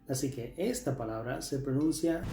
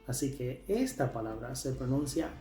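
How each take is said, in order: No difference in how they are said.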